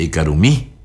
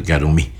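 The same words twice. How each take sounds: First: "Ekarumí" with the stress on mí; stress on the last syllable. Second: Gentle invitation. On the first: Teacher to students, stressing the final mí of "Ekarumí". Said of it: "ahí sí que le acentúa". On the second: Teacher voicing a parent coaxing a child to eat, gently. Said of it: "casi con una caricia". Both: Shown as a demonstration.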